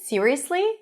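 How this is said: The pitch rises at the end, like a question. The speaker is genuinely surprised and asking. "Rising intonation"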